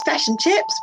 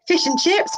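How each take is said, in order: First: Fish and chips with the Kiwi i, fish close to fesh, pitched higher; Kiwi accent. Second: Fish and chips with an Australian i, pitched higher; Australian accent. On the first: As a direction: say fish and chips the New Zealand way. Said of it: "one's Kiwi". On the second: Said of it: "One's Australian". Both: Shown as a demonstration.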